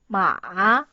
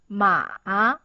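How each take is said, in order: Both takes have the same delivery.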